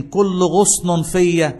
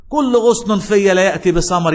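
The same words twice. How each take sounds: First: كل غصن فيا drawn out very slowly, كل held long; slow drawn recitation. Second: كل غصن فيا proclaimed louder, كل punched; loud recitation. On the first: Pastor recites the verse slowly for the church to follow. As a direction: stretch كل غصن فيا so they can join in. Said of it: "مين يكمل معايا؟". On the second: Pastor proclaims the verse loudly to the congregation. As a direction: declaim كل غصن فيا with full force. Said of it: "يعمل إيه؟". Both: Shown as a demonstration.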